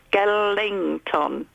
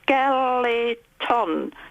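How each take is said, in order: First: It is said with an added ng sound inside. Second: It is said plainly, with no added ng sound. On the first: The speaker calls it wrong. "not Skellington" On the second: The speaker calls it right. "It's Skeleton"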